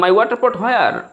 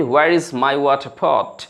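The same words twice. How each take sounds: First: "My water pot where?" pitched high as a learner's eager broken English; broken English try. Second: "Where is my water pot?" said very slowly, each word spelled out clearly; slow correct model. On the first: Teacher imitating a student's broken English, pitched high. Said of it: "তো আপনি বলেন". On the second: Teacher showing students the correct English sentence, very slow and clear. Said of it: "এর বাক্যটি বলতে হবে সঠিকভাবে যে". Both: Shown as a demonstration.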